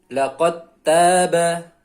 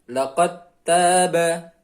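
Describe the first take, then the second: Both takes have the same delivery.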